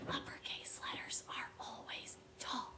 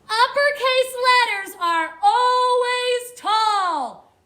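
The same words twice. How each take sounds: First: It is spoken at a normal volume. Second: It is spoken loudly.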